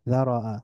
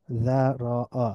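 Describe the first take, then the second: First: যারাআ as one joined word, dha-ro-'a; blended together. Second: যারাআ slowly as dha, ro, 'a; syllable by syllable. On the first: Teacher reading joined-up, যারাআ blended into one word. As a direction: run যারাআ together with a fall. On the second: Teacher breaking down the word, যারাআ syllable by syllable. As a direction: split যারাআ into three drawn-out syllables. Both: Shown as a demonstration. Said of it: "একটু মিলিয়ে মিলিয়ে পড়ব".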